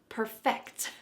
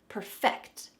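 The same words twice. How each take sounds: No difference in how they are said.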